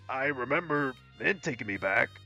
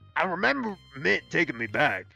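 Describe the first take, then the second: First: It is spoken in the speaker's ordinary accent. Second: It is spoken in a put-on southern American accent.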